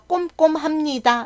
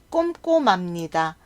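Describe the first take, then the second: First: The h sound is pronounced clearly. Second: The h sound is weakened, almost silent. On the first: The speaker calls it wrong. "라고 하면 발음하기 어렵기 때문에" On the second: The speaker calls it right. "미음이 히읗 자리에 가서"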